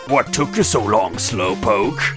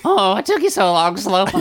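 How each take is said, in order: First: It is read in the speaker's normal voice. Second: It is read in a put-on adolescent Robotnik voice.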